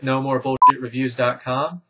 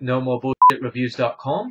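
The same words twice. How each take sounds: First: It is said in the speaker's natural accent. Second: It is said in a put-on British accent. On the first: "For real this time" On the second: "my British accent sucks, as I just demonstrated"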